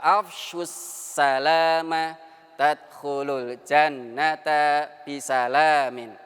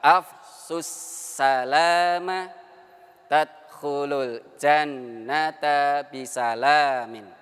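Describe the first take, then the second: First: It is recited a little faster. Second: It is recited slowly. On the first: "intonasinya agak cepat sedikit ya" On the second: "kita baca dulu perlahan-lahan"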